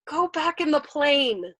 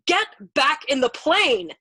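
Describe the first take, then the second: First: Slow, loud, high plea; pleading. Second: Slow, loud, high shout; desperate shouted order. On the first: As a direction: beg him slowly and helplessly. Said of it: "pleading with him now". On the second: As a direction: shout it word by word to drive him back. Screamed order at navigator. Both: A narrator's reading.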